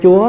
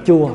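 First: The word is said with a high rising tone. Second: The word is said with a flat level tone. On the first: It means the Lord. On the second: It means sour.

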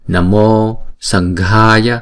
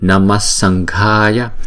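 First: The first word ends with an o sound. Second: The first word ends with an s sound.

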